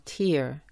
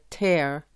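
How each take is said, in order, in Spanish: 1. La vocal no es un sonido de E corta. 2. La vocal es una E corta antes de R. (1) "y no tear" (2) "cuando esta palabra se pronuncia tear"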